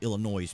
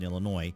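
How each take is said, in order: First: The final s sound is pronounced. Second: The final s sound is silent. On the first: The speaker calls it wrong. "You can't say Illinois because there's no noise" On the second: The speaker calls it right. "there's no noise in Illinois"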